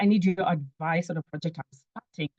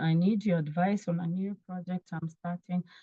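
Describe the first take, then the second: First: The voice sounds lively and excited. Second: The voice sounds flat and bored. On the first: The listener is likely to want to talk. The speaker calls it right. "I'm really, really excited about it" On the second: The listener is likely to refuse. The speaker calls it wrong. "You sound bored"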